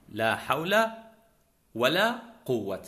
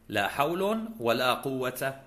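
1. الأول ينتهي بـ -a، والثاني ينتهي بـ -an. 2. الأول ينتهي بـ -un، والثاني ينتهي بـ -a. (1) "وفتح الأول ونصب الثاني" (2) "رفع الأول وفتح الثاني"

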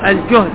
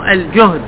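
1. الحركة الأولى هي صوت 'u' مدور. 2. الحركة الأولى هي صوت 'a' مفتوح. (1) "الجهد بالضم عفوا" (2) "الجهد بالفتح"

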